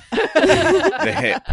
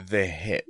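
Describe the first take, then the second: First: High, loud laughing shout. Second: Said in the usual way. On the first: Real, not acted. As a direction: burst out laughing on it. Joking about popped hip.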